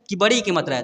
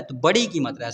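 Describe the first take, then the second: First: Rising quiz tune on "कि बड़ी की मात्रा है?", asking the class; quizzing question. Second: "तो बड़ी की मात्रा है" settled with a falling tune; confirming answer. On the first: Teacher quizzing pupils on the vowel sign, asking tune. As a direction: ask it as a teacher's test question with the voice lifting. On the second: Teacher confirming the answer to pupils, falling tune. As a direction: answer your own question firmly, tune falling. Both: Shown as a demonstration.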